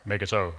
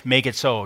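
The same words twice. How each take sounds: First: Lightly imitated starship captain; low, soft, understated command; Jean-Luc Picard. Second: Said in the usual way. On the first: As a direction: give a quiet captain's order, lightly mimicked. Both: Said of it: "You know, like Jean-Luc Picard".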